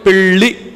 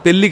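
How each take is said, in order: First: The l sound is retroflex. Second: The l sound is plain, not retroflex. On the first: The speaker calls it right. "అక్కడ మాత్రం ళ అనాలి" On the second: The speaker calls it wrong. "కాదు"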